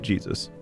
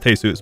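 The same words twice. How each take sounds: First: The name is said the English way. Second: The name is said the Spanish way. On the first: This pronunciation is used for comic effect. "it's funnier if you pronounce it Jesus" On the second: This is how the name is really pronounced. "I know it's pronounced Jesus"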